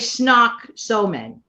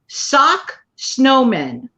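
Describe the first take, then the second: First: The first word begins with an sn sound. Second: The first word begins with a plain s sound. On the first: The speaker calls it wrong. "they normally say snock snowmen" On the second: The speaker calls it right. "I said it right"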